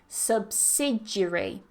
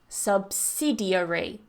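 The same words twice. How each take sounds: First: One syllable is dropped from the word. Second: Every syllable of the word is pronounced.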